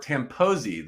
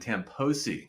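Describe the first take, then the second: First: The middle consonant sounds like a buzzing z. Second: The middle consonant sounds like a hissing s. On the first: The speaker calls it right. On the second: The speaker calls it wrong.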